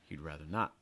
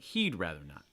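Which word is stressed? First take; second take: not; he'd. First: The stress falls on the last word. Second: The stress falls on the first word. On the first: "especially if you're stressing not" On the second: "If you want to stress he'd"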